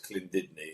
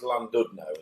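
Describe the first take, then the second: First: The name is said in an imitated Welsh accent. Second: The name is said with plain English sounds.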